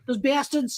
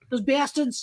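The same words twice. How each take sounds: First: It is said in a Peter Griffin impression. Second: The same.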